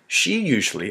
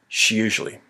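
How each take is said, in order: First: Both words are said fully and slowly. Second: The words are run together quickly. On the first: The speaker calls it wrong. "I don't say she usually" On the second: The speaker calls it right. "I say she usually. ... it's a quick speaking style"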